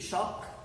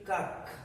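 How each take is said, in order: First: The word begins with a sh sound. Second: The word begins with a k sound. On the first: "C H should be pronounced as sha, ... this should be shock" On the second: "If this is chemistry, this should be kak"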